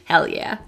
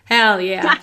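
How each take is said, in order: First: Said in the usual way. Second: Louder, punchier second hell yeah; enthusiastic cheer. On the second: Real, not acted. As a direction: cheer it like a rally cry. Repeats it louder.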